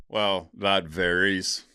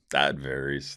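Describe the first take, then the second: First: Slow, musing drawl of that varies; slow drawn-out. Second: Said in the usual way. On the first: Acted. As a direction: stretch out "Well, that varies" thoughtfully and slowly. Answering a viewer question.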